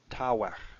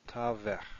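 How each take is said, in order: First: The middle consonant is a w sound. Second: The middle consonant is a v sound.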